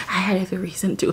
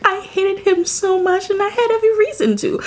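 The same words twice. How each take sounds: First: Said in the usual way. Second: Much higher, insistent; every reason to hate him, pushed up high; emphatic rant. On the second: Real, not acted. Ranting about hated character.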